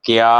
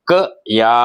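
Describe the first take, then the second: First: క్యా run together as one syllable; one-beat క్యా, teacher's demonstration; blended conjunct. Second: క and యా as two separate sounds; sounded out separately. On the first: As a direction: join half k straight into యా in క్యా. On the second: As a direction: say క, pause, then యా. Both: Shown as a demonstration. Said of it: "కలిపి రాసినప్పుడు సంయుక్తాక్షరం".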